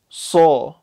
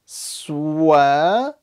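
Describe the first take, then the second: First: Lips stay unrounded, with no w sound. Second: Lips round, adding a w sound. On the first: The speaker calls it right. "See how I'm saying a saw" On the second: The speaker calls it wrong. "I'm not saying swa, swa. That'll be a big mistake"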